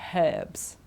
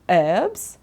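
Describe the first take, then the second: First: The word starts with an H sound. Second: The word starts with no H sound. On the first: "in British English we pronounce it, we say herbs" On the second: "in American English, they say herbs, okay, don't pronounce the H"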